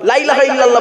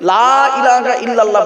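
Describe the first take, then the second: First: The opening 'la' is short, not drawn out. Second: The opening 'la' is drawn out long. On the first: Surely there is a god besides Allah. The speaker calls it wrong. "লা ইলাহা ইল্লাল্লাহ বলবেন না কিন্তু" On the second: There is no god except Allah. The speaker calls it right. "লামে টান দেবেন, লয়াকারে টান দেবেন, লা ইলাহা ইল্লাল্লাহ বলবেন"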